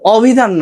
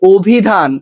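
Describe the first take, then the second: First: The first vowel is an open 'aw' sound. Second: The first vowel is a closed 'o' sound. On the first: The speaker calls it wrong. "অভিধান না" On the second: The speaker calls it right. "এটা হচ্ছে অভিধান"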